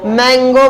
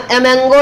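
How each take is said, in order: First: मैंगो starting straight on the m; slow, clear मैंगो with no vowel before it; corrected pronunciation. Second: ए मैंगो with a vowel before the m; ए मैंगो, not starting on m; rejected pronunciation. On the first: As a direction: say मैंगो slowly, m first. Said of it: "क्या बोल रहे हैं". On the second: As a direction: put an extra vowel ahead of मैंगो in ए मैंगो. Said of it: "नहीं बोल रहे हैं". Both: Shown as a demonstration.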